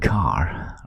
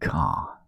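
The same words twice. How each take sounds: First: The final R sound is clearly pronounced. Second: The final R sound is dropped. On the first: "pronouncing the R" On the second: "as the the English would often say"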